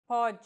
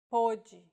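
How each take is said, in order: First: Pode with an open ó, PAW-djee. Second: Pode with a closed ô, POH-djee; closed first vowel in pode. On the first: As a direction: open first vowel in Pode. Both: Shown as a demonstration. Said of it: "this mark may or may not refer to the vowel".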